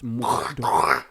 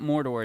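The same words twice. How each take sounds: First: It is said in a gravelly, phlegmy voice. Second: It is said in a plain, normal voice.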